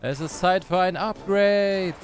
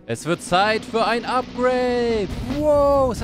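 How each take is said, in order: First: Slow, drawn-out hero announcement; mild slow, epic proclamation; grand announcement. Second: Slower, higher and louder epic announcement; big drawn-out hero proclamation; booming proclamation. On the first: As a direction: announce the upgrade like a god. Announcing Thor upgrade, first take. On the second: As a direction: proclaim it like a god taking power. Announcing Thor upgrade, second take. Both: Pretend.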